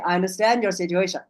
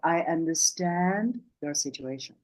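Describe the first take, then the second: First: It is said quickly with a short, strong breath. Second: It is said slowly with a long, soft breath. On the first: A contradiction seems to be coming next. The speaker calls it wrong. "You cannot say, ... It sounds like there's a but coming" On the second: Real sympathy with nothing held back. The speaker calls it right. "the breath is long and slow. It'd be more like"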